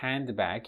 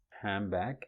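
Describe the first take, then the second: First: Every sound is said clearly, including the d. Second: The d is dropped and the n sounds like m. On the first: "the word handbag" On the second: "in rapid speech becomes handbag"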